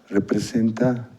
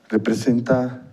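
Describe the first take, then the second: No difference in how they are said.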